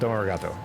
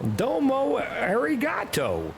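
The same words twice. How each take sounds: First: It is said evenly, without strong emphasis. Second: It is said with heavy, punchy American emphasis. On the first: The speaker calls it right. "you don't really emphasize" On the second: The speaker calls it wrong. "in the most like dumbass American guy way ever"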